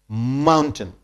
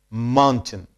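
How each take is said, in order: The two takes are said the same way.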